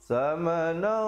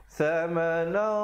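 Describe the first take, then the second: No difference in how they are said.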